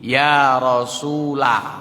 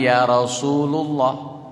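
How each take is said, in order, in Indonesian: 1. Vokal setelah Rasul adalah 'a'. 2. Vokal setelah Rasul adalah 'u'. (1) "berbunyi ya Rasulah, bukan ya Rasulu"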